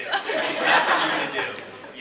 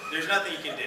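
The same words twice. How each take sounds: First: Drawn out, hushed, resigned; slow emphatic repeat. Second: Said in the usual way. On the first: Shown as a demonstration. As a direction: slowly drive the point home.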